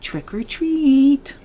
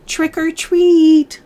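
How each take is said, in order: First: It is said very softly. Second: It is said a little louder.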